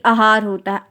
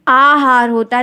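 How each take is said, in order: First: The first vowel is short. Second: The first vowel is long. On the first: The speaker calls it wrong. "ना कि" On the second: The speaker calls it right.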